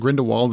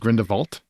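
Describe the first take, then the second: First: The last part begins with a W sound. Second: The last part begins with a V sound. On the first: The speaker calls it wrong. "It's not Grindelwald" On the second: The speaker calls it right. "it's Grindelwald. ... like Volt"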